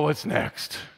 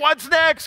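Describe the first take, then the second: First: It is said in a weary, resigned tone. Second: It is said in an eager, expectant tone. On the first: The speaker dreads what comes next. The speaker calls it wrong. "Not rolling over and saying, oh" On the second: The speaker looks forward to what comes next. The speaker calls it right. "I want to wake up every morning saying"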